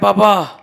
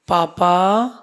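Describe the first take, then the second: First: It is said in a plain, ordinary tone. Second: It is said in a sweet, coaxing tone.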